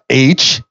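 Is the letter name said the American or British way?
American. The letter is said the American way, 'aitch'.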